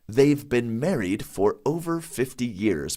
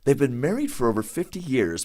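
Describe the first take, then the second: First: The sentence is spoken at a slow pace. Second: The sentence is spoken at a fast pace. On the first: "Now slowly" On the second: "I'm gonna say it fast at first"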